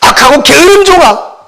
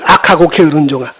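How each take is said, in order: First: It is said with strong feeling. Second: It is said plainly, without strong feeling. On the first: "아마 그 속에 감정이 들어가 있다면" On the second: "저는 그렇게 말했지만"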